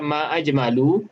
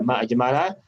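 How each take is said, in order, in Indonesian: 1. Vokal akhir kata terakhir adalah u. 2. Vokal akhir kata terakhir adalah a. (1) "kalau kita baca ma'ajmalu, itu maksudnya apakah yang cantik?" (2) "dibaca ma'ajmala, maka ma itu sebagai ma ta'ajubiyah"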